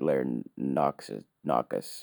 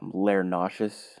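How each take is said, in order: First: The surname sounds like nocus, not nauseous. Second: The surname sounds like the word nauseous. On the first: The speaker calls it wrong. "not Lair Nocus" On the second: The speaker calls it right. "it's actually Lair Nauseous"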